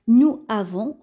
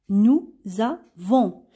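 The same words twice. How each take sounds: First: No z sound links the two words. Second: A z sound links the two words. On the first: The speaker calls it wrong. "on va pas prononcer de cette façon" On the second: The speaker calls it right. "le S va se prononcer ZE"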